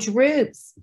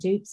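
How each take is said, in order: First: The word is said with an r sound. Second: The word is said without an r sound. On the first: The speaker calls it right. "Got that R in there" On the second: The speaker calls it wrong. "if you say it like that, dupes. Is that how you say the dupes"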